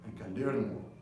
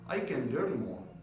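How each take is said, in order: First: It is said flatly, with little intonation. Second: It is said expressively, with lively intonation. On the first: The speaker calls it wrong. "instead of just saying" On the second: The speaker calls it right. "This kind of intonation, because you're talking from your heart"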